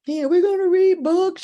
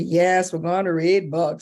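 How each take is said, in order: First: Put-on high, loud, gleeful child voice; imitated child's happy shout; excited little boy. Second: Said in the usual way. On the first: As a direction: cheer it like a thrilled kid.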